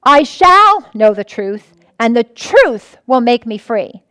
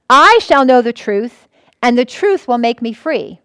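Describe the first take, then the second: First: SHALL drawn out and pressed, slow; stress on SHALL. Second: I said slower and leaning on I; stress on I. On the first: Pastor demonstrating stressed shall to the congregation, slow emphasis. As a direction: press the word shall, then lean on will. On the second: Pastor stressing I to the congregation, slow and deliberate. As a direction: lean on I in I shall know the truth. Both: Shown as a demonstration. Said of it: "Then you can stress different words in it".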